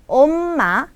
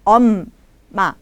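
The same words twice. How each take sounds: First: 엄마 said fast with a long m; quick 엄마, the wrong version; wrong take. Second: 엄마 said firmly, a little lower; settled, correct 엄마; correct take. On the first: Teacher showing the wrong 엄마, said quickly. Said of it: "Jadi bukannya 엄마". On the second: Teacher giving the right 엄마 after the wrong one. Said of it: "tapi 엄마". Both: Shown as a demonstration.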